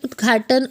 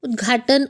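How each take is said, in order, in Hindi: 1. जल्दी बोलने पर 'gh' से पहले d होता है। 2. जल्दी बोलने पर 'gh' से पहले d होता है।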